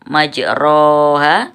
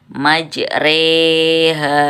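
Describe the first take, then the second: First: The vowel after r is a plain open vowel. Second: The vowel after r is tilted toward e. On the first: "itu ada tulisannya majriha, majroha" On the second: "imalah, memiringkan. Jadi bacanya majreha"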